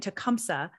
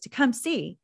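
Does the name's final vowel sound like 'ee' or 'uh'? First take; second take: uh; ee. First: The name ends with an uh sound. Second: The name ends with an ee sound. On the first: This is how the speaker grew up saying it. The speaker calls it wrong. "I grew up saying" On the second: This is how the name's bearer says it. The speaker calls it right. "Nancy says Tecumseh"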